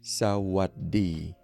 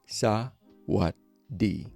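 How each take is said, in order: First: The word is said at a faster pace. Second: The word is said at a slower pace.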